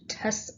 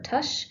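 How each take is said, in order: First: The word ends with an s sound. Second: The word ends with an sh sound. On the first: "or just the C" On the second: "or just the schwa"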